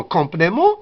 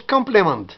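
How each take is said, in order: First: "complément" with nasal vowels, silent t; French pronunciation. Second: "complément" as COM-ple-ment, t sounded; English pronunciation. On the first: Teacher showing the French word, French nasal ending. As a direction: say "complément" as kon-play-MAHN. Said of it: "En français". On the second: Teacher showing the accentless English word, sounded consonants. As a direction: say "complément" the English way, final t heard. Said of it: "En anglais, c'est sans accent". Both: Shown as a demonstration.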